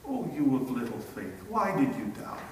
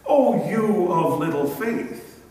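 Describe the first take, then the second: First: Soft, low, merciful chiding; gentle rebuke. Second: A louder, cold brush-off; mock dismissive rebuke. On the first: Retold or imitated. Jesus gently rebuking Peter after catching him, soft merciful tone. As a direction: correct him kindly while holding him up. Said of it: "gracious and merciful to him". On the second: A harsh imagined Jesus dismissing a doubter, mock cold rebuke. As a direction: say it as if you'll turn away. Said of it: "Never ever does Jesus say".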